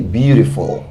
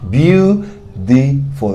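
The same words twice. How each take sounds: First: Said in the usual way. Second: Beautiful drawn out syllable by syllable; slow demo. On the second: Shown as a demonstration. Teacher showing students how to say Beautiful, very slowly. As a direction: stretch out Beautiful as a model word. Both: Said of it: "Kòman di joli an angle".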